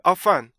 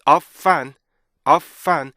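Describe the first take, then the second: First: OF FUN said quickly as one word, A-FUN; wrongly merged. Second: OF, short stop, FUN, each punched; two-part rhythm. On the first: Teacher showing what to avoid, OF FUN run together. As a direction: run OF into FUN without a gap. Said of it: "이렇게 읽으면 안 되고요". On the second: Teacher modelling rhythm, OF and FUN clearly split. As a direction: give OF and FUN separate loud beats. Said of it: "리듬을 좀 더 주어줘야 돼요". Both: Shown as a demonstration.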